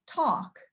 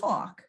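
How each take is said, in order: First: "talk" said the way learned for Boston; learned pronunciation of talk. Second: "talk" in the speaker's own New York way; native pronunciation of talk. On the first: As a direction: say "talk" in the adopted out-of-town way. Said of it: "had to learn to, like, say". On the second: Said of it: "instead of talk". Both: Shown as a demonstration.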